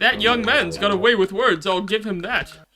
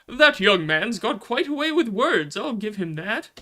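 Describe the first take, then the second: First: It is said in a Holtman-like character voice. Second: It is said in a jolly Santa character voice.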